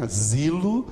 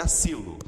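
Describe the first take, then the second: First: "Asilo" with a voiced Z for the S; Z sound. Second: "asilo" with a hissing S, not a Z; sharp S. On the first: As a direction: say "Asilo" buzzing the S as Z. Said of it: "ele vai ter o som do Z". ("Asilo" com som de Z) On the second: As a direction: say "asilo" with a clear sibilant S. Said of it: "em português seria asilo". ("asilo" com S sibilante, sem Z) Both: Shown as a demonstration.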